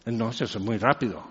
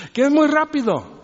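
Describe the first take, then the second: First: Low and quick, hushed rattle; mock fast speaker, mumbled low; fast, quiet mock rush. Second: Mock complaint. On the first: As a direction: rattle it off softly like fast talkers. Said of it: "Y están hablando así". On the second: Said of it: "la queja de cualquier gringo".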